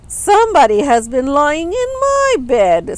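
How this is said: It is said in a middle-sized bear voice.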